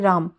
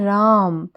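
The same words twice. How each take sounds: First: The vowel is said short and plain. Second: The vowel is held long and drawn out. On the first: The speaker calls it wrong. "राम शब्द को हम ऐसे नहीं बोलते" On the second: The speaker calls it right. "हम बोलते हैं"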